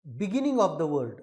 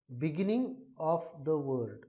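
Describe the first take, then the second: First: "beginning of the word" slow and louder; emphatic. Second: "beginning of the word" slow and softer; softer repeat. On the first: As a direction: spell it out slowly, stressed. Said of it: "कि". (धीमा और ज़ोरदार) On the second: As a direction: repeat it slowly, gently. (धीरे से दोहराना) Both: Shown as a demonstration.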